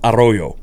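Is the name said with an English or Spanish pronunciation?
Spanish. It is said with a Spanish pronunciation.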